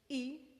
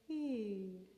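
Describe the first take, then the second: First: The vowel starts with a hard glottal attack. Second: The vowel starts with a soft breathy h. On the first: The speaker calls it wrong. "we're not saying E" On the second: The speaker calls it right. "I attach a soft little H before"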